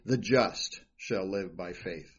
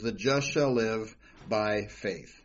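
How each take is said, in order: First: The stress is on "just". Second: The stress is on "faith".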